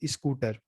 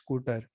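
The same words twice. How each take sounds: First: It is said in a UP-Bihar regional accent. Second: It is said in a Delhi regional accent. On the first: "Uttar Pradesh Bihar में जाएंगे तो" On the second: "Delhi में बोलते हैं"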